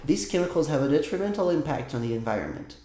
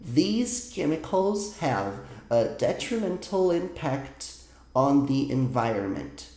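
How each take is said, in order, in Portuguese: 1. A frase é lida mais rápido e com mais fluidez. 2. A frase é lida muito devagar. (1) "Lendo agora um pouco mais rápido, de forma mais fluida, como eu falaria a frase" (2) "Vou ler mais uma vez, mais lento ainda"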